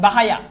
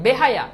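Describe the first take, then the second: First: বাহায়া with open "æ", bæ-ha-ya, louder; altered wrong pronunciation. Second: বেহায়া with a closed e, be-ha-ya; correct pronunciation. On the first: Teacher tests the vowel change on students, বাহায়া said loudly as bæ-ha-ya. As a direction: punch বাহায়া with first vowel as in "bat". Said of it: "জফলা আকার আনো". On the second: Teacher shows the word as people say it, বেহায়া with plain e. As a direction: say বেহায়া firmly, first vowel as in "bet". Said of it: "বেহায়া উচ্চারণ". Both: Shown as a demonstration.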